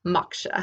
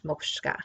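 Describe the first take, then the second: First: "moksha" as MOK-sha, with an open first vowel; self-corrected "moksha", MAHK-shuh, no extra k; Indian word, corrected. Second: "moksha" slipped into a Russian-like "mokshka"; accidental Russian-style "moksha", like "mokshka"; Russian-sounding slip. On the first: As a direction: say "moksha" cleanly, ending in a simple "sha". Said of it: "it's Indian". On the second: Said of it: "say it like I'm Russian". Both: Real, not acted.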